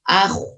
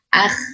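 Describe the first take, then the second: First: The kh is made excessively thick and heavy. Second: The kh is made thin and light. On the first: "Atau terlalu tebal" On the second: "ketika sukun ditipiskan"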